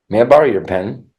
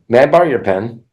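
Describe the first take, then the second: No difference in how they are said.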